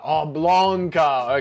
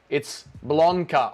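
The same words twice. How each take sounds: First: Blonka drawn out slowly, echoing the correction; slow repeated name. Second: Blonka said slowly, each syllable drawn out, open o; slow careful name. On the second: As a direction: spell out Blonka slowly for the listener. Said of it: "Dougie's middle name is". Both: Shown as a demonstration.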